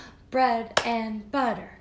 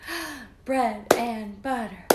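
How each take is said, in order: The two takes are said the same way.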